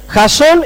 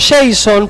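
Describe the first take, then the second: First: The stress is on the second syllable. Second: The stress is on the first syllable. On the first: The speaker calls it right. "tiene el acento en la O" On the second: The speaker calls it wrong. "no está en inglés"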